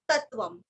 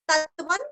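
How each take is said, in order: First: The word ends with an m sound. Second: The word ends with an n sound. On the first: "आप म भी कर सकते हैं" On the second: "आगे त आया है तो आप न का भी उच्चार कर सकते हैं"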